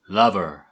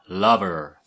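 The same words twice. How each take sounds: Both takes have the same delivery.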